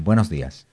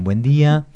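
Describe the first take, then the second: First: Spanish greeting. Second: Argentine greeting. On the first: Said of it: "si salís de Barajas, de Madrid, te dicen". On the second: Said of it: "aterrizás acá y te dicen". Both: Retold or imitated.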